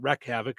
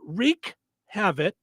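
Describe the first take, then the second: First: The first word has a short 'e' vowel. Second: The first word has a long 'ee' vowel. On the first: The speaker calls it wrong. "not wreck havoc" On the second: The speaker calls it right. "is the way you say it"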